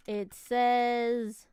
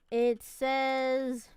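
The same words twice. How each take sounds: The two takes are said the same way.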